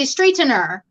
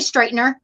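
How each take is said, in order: First: The word is said with every syllable enunciated. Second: The word is said in a relaxed, reduced way. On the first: "because that's how you spell it" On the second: "They don't say straightener"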